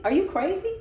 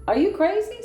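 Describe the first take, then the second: First: Incredulous. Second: Much higher, louder disbelief; shocked, louder incredulous cry; incredulous outburst. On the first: Incredulous at the schemer. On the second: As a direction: throw "Are you crazy?" up high and loud at them. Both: Real, not acted.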